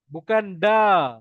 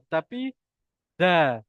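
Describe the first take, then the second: First: The d is made away from the gum ridge. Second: The d is made between gum and upper teeth. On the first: The speaker calls it wrong. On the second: The speaker calls it right. "Lidah tu dekat antara gusi dan gigi atas"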